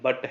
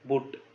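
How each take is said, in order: First: The vowel is open, as in 'cut'. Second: The vowel is rounded, as in 'put'. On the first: The speaker calls it right. "ये बट है" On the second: The speaker calls it wrong. "बुट नहीं"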